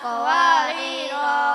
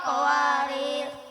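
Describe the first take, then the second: First: The final vowel is drawn out long. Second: The word ends with no final vowel. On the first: "panjang wakof" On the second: "pendek sukun"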